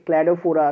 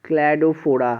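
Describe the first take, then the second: First: ক্ল্যাডোফোরা said clearly, each syllable distinct; model pronunciation. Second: ক্ল্যাডোফোরা said slowly, syllable by syllable, falling; careful pronunciation. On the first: Teacher to students who can't follow, modelling ক্ল্যাডোফোরা. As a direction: say ক্ল্যাডোফোরা so they can copy it. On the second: Teacher to confused students, pronouncing ক্ল্যাডোফোরা carefully. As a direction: spell out ক্ল্যাডোফোরা clearly. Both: Shown as a demonstration. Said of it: "আমার উচ্চারণটাকে শোনো".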